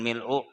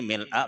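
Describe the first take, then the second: First: The word ends with a 'u' vowel. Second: The word ends with an 'a' vowel. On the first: The speaker calls it wrong. "bukan mil'u" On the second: The speaker calls it right. "jadi mil'a bacaannya"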